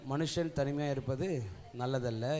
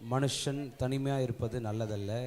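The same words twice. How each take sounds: The two takes are said the same way.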